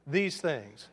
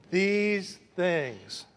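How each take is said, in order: First: Said in the usual way. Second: THESE ... THINGS, very slow, two separate long words; drawn-out prompt. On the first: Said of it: "Say it with me". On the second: Shown as a demonstration. Preacher conducting the congregation through THESE THINGS, slowly drawn out. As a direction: stretch THESE and THINGS so a crowd can follow. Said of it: "Watch my finger".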